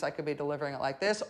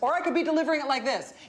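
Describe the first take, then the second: First: It is said in a calm, quiet voice. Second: It is said in a loud, energetic voice.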